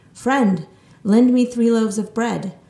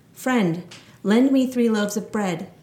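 No difference in how they are said.

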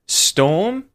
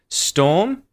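First: The voice rises on the word. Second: The same.

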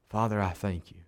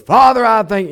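First: It is said quietly and softly. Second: It is said loudly and boisterously.

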